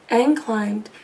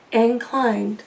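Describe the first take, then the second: No difference in how they are said.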